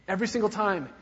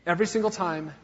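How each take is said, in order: Both takes have the same delivery.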